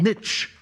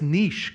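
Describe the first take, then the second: First: The word is said in the American way. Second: The word is said in a non-American way. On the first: The speaker calls it wrong. "It's not niche. But the Americans, because they pronounce it niche" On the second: The speaker calls it right. "The word's niche, guys"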